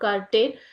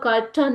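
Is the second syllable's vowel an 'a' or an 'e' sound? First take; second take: e; a. First: The second syllable has an 'e' vowel. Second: The second syllable has an 'a' vowel. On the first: "ಅ and ಎ" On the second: "ಅ and ಅ"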